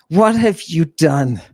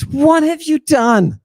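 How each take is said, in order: First: Said in the usual way. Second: High, wailing rhetorical question; mock lament. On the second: Scolding the satanic congregation, high mock wail. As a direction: cry it out like a stage preacher.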